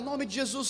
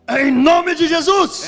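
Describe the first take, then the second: First: It is said in an ordinary, plain voice. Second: It is said in a booming, dramatic preacher voice.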